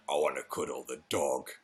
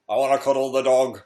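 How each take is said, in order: First: Much lower and softer, deliberately deep; deep serious voice. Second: Said in the usual way. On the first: Shown as a demonstration. Correcting himself after squealing, low and deep. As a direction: drop to a low, grave tone for "I wanna cuddle the dog". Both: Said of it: "That's how I should have said it".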